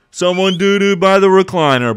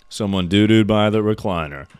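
First: Loud disgusted squeal; shocked high yell. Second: Said in the usual way. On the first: Real, not acted. Streamer to chat about poop by the recliner, shocked high yell. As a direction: shriek it high and loud, half laughing in disgust.

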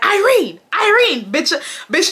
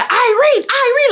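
First: Mock high yelling. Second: High, loud mocking call of her name; mock screaming a name. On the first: Mocking his calls, retold. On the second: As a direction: call her name like a pushy guy shouting across the lot. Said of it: "like, screaming my name".

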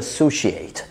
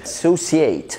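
First: "associate" with a sh, a-so-shee-ate; "associate" the British way, c as sh; British pronunciation. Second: "associate" with an s, a-so-see-ate; "associate" the American way, c as s; American pronunciation. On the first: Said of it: "في البريتش انجلش بنقول". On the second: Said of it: "فرق ما بين الامريكان انجلش والبريتش". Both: Shown as a demonstration.

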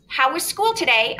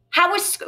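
First: Mother's question read aloud in a story voice. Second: Said in the usual way. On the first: Shown as a demonstration. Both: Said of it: "let me go back to my reading voice".

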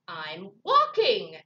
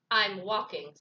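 First: Loud, slow irritated snap; snapped. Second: Slightly lower, firm grumpy bird; a touch of grumpiness, punched briefly; mildly grumpy. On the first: Grumpy Bird answering Raccoon, snapped and loud. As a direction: snap it, leaning hard on WALKING. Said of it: "snapped Bird". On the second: Grumpy Bird answering Rabbit, mildly grumpy. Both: Acted.

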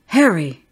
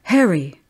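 First: An even louder, more desperate cry; louder shout. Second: Loud call out of a window; shout. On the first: Mother calling again into the garden, louder and desperate. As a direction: call the name again, harder, almost frantic. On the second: Mother calling to the ghostly boy from the window, loud. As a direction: call the name out into the garden. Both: Acted. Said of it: "opened the window and shouted".

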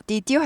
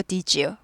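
First: "Did you" said as "did" plus "you"; unlinked sounds. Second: "did you" run together as "di-joo"; soft j sound joining "did you"; softened linking. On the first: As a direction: keep the d apart from the y in "Did you". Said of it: "Did you 하지 않고". ("Did you" 디드 유로 끊어서) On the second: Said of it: "부드러운 발음이 됩니다". ("did you" 디쥬로 이어서) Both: Shown as a demonstration.

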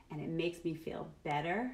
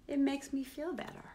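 First: Said in the usual way. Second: Higher, lighter repeat. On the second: Shown as a demonstration. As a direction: lift the second one.

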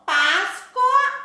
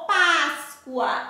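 First: First "Páscoa" slow, with a full O before the A; spelling pronunciation. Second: Second "Páscoa" slow, ending in -cua. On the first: Teacher contrasts two forms for pupils, "Páscoa" with clear O. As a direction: sound out "Páscoa" as pás-co-a. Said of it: "A gente sempre diz Páscoa". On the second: Teacher contrasts two forms for pupils, "Páscoa" with U sound. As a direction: glide the O of "Páscoa" as a U. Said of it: "com o sonzinho do U". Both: Shown as a demonstration.

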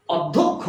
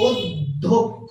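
First: অধ্যক্ষ with open "aw" at the start; common mispronunciation. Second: অধ্যক্ষ very slow and low, "od... dhok... kho"; correct pronunciation. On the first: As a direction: say অধ্যক্ষ as "awd-dhok-kho". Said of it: "এটাকে বলি হচ্ছে". (অধ্যক্ষ-এর শুরুতে খোলা অ) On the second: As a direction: draw অধ্যক্ষ out by syllables with closed "o". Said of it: "ওকার দিয়ে লিখছি". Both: Shown as a demonstration.

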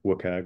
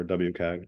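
First: "wcag" run together as one word; acronym as word. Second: "W cag" with the W named as a letter; letter W, then cag. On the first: Reporter offering one pronunciation to the group, "wcag" as one word. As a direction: say "wcag" as a word, not spelt out. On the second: Reporter offering the other pronunciation, "W cag" with a spelt-out W. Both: Shown as a demonstration. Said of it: "depending on how it's pronounced".

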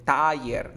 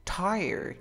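First: "tire" said loud with a Spanish-style ending; loud, Hispanicized "tire" as a counterexample; non-gringo pronunciation. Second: High-pitched TIRED in a gringo accent; exaggerated American "Tired". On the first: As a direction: punch "tire" as a Spanish word, like "taller". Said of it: "tampoco así". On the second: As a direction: say "Tired" like a gringo, voice lifted at the start. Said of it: "Tienes que darle ese acento gringo". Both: Shown as a demonstration.

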